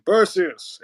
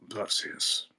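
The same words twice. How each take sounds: First: Drawn-out character voice for Perseus; original film Perseus. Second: Soft, hushed character voice; newer film Perseus. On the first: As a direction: say the name slowly, in character. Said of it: "for the voices I was talking about". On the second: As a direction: say the name quietly, almost whispered. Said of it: "That's kinda how he sounds in". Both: Shown as a demonstration.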